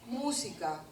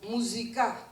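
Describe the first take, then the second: First: The stress falls before the last syllable. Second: The stress falls on the last syllable. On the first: This is the standard Spanish form. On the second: This is the Haketia form.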